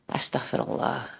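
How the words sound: It is said in a remorseful tone.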